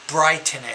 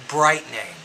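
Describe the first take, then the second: No difference in how they are said.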